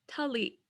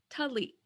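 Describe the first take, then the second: Both takes have the same delivery.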